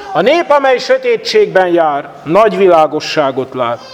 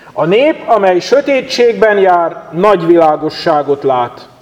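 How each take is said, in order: No difference in how they are said.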